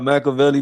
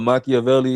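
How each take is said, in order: First: The name is said with English pronunciation. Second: The name is said with Italian-style pronunciation.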